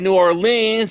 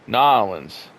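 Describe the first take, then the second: First: The name is said as separate full words. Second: The name is squeezed into one short word. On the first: This is the speaker's own everyday way. "I say New Orleans" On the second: This is how some locals say their hometown. "It's all one word with some people"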